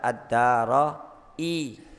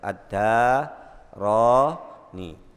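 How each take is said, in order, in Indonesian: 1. Bunyi hamzah ada sebelum vokal akhir. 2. Bunyi n ada sebelum vokal akhir.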